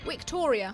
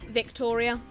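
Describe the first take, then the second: First: The word begins with a W sound. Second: The word begins with a V sound. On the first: The speaker calls it right. "my name is like Victoria in Latin" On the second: The speaker calls it wrong. "it's not Victoria"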